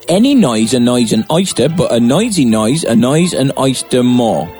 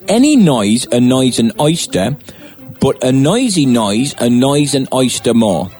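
First: It is said at a faster pace. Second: It is said at a normal pace.

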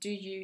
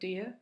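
First: Both words are pronounced fully and clearly. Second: The words are relaxed and reduced together.

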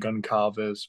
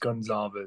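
First: The C is said as a hard K sound. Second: The C is said as a soft S sound. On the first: The speaker calls it wrong. "confuse the C and say Goncalves" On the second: The speaker calls it right. "but it's Goncalves"

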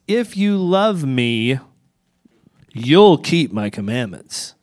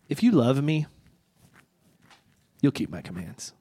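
First: It sounds like a demanding, conditional threat. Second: It sounds like a warm, reassuring promise.

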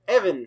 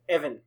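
First: The name is said very loudly. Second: The name is said at normal volume.

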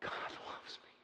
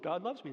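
First: It is said with an amazed gasp. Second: It is said flatly, without interest.

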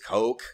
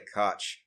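First: The name sounds like the word coke. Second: The name does not sound like coke. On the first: This is the accepted pronunciation. "I know it's Coke" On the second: This is a playful personal pronunciation. "I say Koch because it's funner to say Koch"

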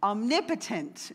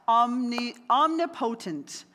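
First: The ending does not sound like 'potent'. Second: The ending sounds like the full word 'potent'. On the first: The speaker calls it right. "Omnipotent is actually how you say it" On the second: The speaker calls it wrong. "I always get this word wrong"

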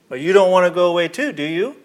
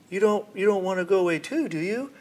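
First: It sounds strong and firm. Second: It sounds meek and pleading.

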